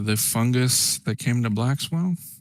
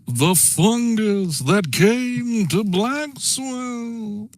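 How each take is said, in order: First: It is said in a plain, ordinary voice. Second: It is said in a dramatic, theatrical voice. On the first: The speaker calls it wrong. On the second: The speaker calls it right.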